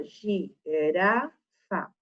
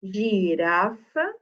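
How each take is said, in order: First: "girafa" dita gi-ra-fa, devagar e mais grave; separando sílabas. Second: Said in the usual way. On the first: Shown as a demonstration. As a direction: alongue cada sílaba de "girafa". ("girafa" silabada bem devagar) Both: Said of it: "Se eu separar sílabas".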